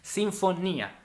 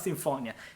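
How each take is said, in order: First: It is pronounced the Italian way. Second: It is pronounced the English way. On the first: The speaker calls it right. "I'm Italian, so Sinfonia" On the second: The speaker calls it wrong. "now not Sinfonia"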